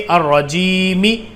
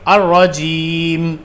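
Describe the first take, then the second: First: The word ends with an added final vowel. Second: The word ends on a bare final consonant. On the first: The reading carries on without stopping. The speaker calls it wrong. "मैं इसको आलमीना और रहीमी और रजीमी ऐसे नहीं पढ़ रहा हूँ" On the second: The reader stops at the end of the verse. The speaker calls it right. "इसको ऐसे पढ़ेंगे अर्रजीम"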